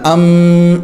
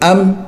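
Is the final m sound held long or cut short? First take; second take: long; short. First: The final m sound is held long. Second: The final m sound is cut short. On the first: The speaker calls it wrong. "अम इस तरह नहीं करना" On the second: The speaker calls it right. "मीम बंद हो जाए"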